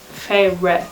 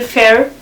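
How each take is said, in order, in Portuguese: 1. O nome não soa como fair. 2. O nome soa como a palavra fair. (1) "o final é Feyre" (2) "eu andei a leitura toda a dizer Fair"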